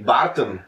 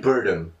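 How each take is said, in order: First: The name is said with a Czech 'a' vowel. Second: The name is said with an English 'er' vowel. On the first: "Barton se říká v češtině" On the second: "I would say Burton"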